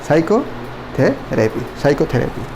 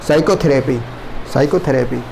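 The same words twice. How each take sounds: The two takes are said the same way.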